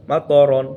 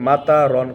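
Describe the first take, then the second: First: মা ত রন with short separate syllables মা and ত, no long তা; correct reading. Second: মাতা রন said with a long drawn ta, the common mistake; wrong reading. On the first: Teacher shows students the correct reading, crisp short syllables. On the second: Teacher shows students the common mistake, wrong reading. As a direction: demo the wrong মাতা রন, stretching মা and তা into মাতা. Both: Shown as a demonstration. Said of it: "মাতা রন হবে না".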